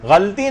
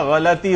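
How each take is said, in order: First: غلطی in two syllables, "ghal-ti"; common mispronunciation. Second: غلطی in three syllables, "gha-la-ti"; correct pronunciation. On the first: Teacher showing the wrong form, غلطی said as "ghal-ti". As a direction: join l and t in غلطی with no vowel between. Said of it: "غلطی نہیں ہوتا". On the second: Teacher correcting the class, غلطی said as "gha-la-ti". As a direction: put a short a between l and t in غلطی. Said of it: "غلطی ہوتا ہے". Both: Shown as a demonstration.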